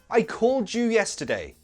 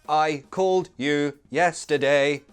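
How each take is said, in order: First: The d and y blend into a j. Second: The d and y are said separately. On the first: The speaker calls it right. "that little baby sounds like j" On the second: The speaker calls it wrong. "That sounds like a robot"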